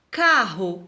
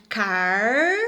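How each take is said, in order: First: Said in the usual way. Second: Car held long, then a pause; slow, drawn-out car, cut off from ro; first syllable alone. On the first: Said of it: "por exemplo". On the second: Shown as a demonstration. Teacher separating double R, syllable held apart. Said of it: "precisam se separar".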